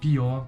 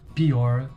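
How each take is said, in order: First: The final 'r' sound is left out. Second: The final 'r' sound is pronounced.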